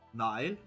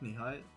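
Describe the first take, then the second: First: The middle h sound is silent. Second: The middle h sound is pronounced. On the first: The speaker calls it right. "The is silent in the pronunciation" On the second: The speaker calls it wrong. "Not Nihil"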